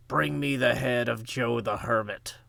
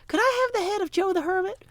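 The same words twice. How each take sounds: First: A hint of a stern biblical ruler giving a command; King Herod voice. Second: Much higher, dainty mock-polite voice; sweet polite request. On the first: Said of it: "That's my best King Herod voice". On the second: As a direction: ask for a head as if it were a cup of tea. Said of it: "was it his father or his wife that was like".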